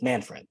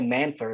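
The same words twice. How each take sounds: First: The second syllable sounds like 'fred'. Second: The second syllable sounds like 'ferd'. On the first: The speaker calls it right. "when it's Manfred" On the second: The speaker calls it wrong. "when you say Manfred"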